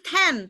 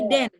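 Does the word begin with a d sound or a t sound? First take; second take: t sound; d sound. First: The word begins with a t sound. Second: The word begins with a d sound. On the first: The speaker calls it wrong. "Bukan ten" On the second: The speaker calls it right. "tapi den. Karena dia de"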